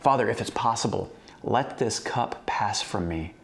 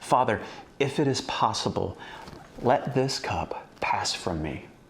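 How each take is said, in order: First: The prayer is read plainly, without strong emotion. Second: The prayer is said dramatically, like a scared plea.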